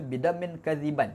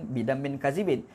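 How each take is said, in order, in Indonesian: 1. Kata terakhir berakhir dengan bunyi 'an'. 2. Kata terakhir berakhir dengan bunyi 'in'. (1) "ada orang baca bidam min kaziban bagi atas"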